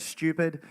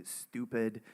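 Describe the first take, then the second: First: "stupid" said Australian, as SHTYOO-pid; Australian "stupid", starting SHTYOO; Australian pronunciation. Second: "stupid" said American, as STOO-pid; American "stupid", starting STOO; American pronunciation. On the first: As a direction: say "stupid" with a sh and y glide. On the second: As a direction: say "stupid" with a plain oo, no y sound. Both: Shown as a demonstration. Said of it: "they say stupid instead of stupid".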